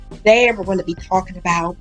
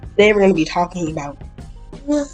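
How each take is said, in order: First: It is said in a put-on accent. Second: It is said in his normal voice.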